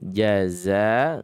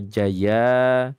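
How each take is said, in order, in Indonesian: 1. Konsonan di tengah adalah bunyi z. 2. Konsonan di tengah adalah bunyi y. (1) "di sini jaza za" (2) "bukan jaza. Jaza atau jaya"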